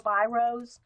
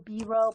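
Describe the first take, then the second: First: Biros said as BY-rohz; alternative pronunciation. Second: Biro said as BEE-roh; French-style pronunciation. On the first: Telling viewers the European name for Bics, biros pronounced BY-rohz. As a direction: say biros with an "eye" in the first syllable. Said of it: "however you pronounce it". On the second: Telling viewers the European name for Bics, biro pronounced BEE-roh. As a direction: say biro with an "ee" in the first syllable. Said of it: "however you say it with the French accent". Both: Shown as a demonstration.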